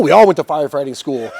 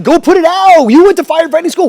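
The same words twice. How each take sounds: First: Said in the usual way. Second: High, loud panicked shouting; frantic yelled orders. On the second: Retold or imitated. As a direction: yell desperately down the phone. Retold frantic orders during fire.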